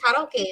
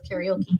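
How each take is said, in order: First: The word is pronounced in a Japanese way. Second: The word is pronounced in an English way. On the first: The speaker calls it right. "it's actually Japanese, it's pronounced karaoke" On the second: The speaker calls it wrong. "instead of karaoke"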